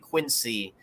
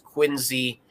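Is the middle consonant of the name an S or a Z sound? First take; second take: S; Z. First: The middle consonant is a hissing s sound. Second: The middle consonant is a buzzing z sound. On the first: The speaker calls it wrong. "you're saying it wrong" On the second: The speaker calls it right. "even though it's a C, it's a Z sound, like zipper or zoo"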